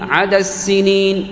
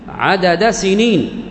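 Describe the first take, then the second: First: The final D merges into a doubled S. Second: The final D is pronounced with its vowel.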